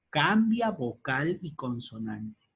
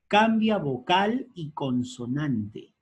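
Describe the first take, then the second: First: Said in the usual way. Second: Cambia vocal y consonante, slowed, with cambia hit hard; slow emphatic rule. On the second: Shown as a demonstration. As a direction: dictate the rule slowly, punching cambia. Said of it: "El primer caso". (cambia vocal y consonante, lento y con énfasis en cambia)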